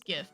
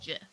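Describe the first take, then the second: First: It starts with a hard G sound. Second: It starts with a soft J-like sound. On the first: This follows the usual spelling pattern. "it makes more sense as GIF" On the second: This is how the creator says it. "it's GIF with a soft G"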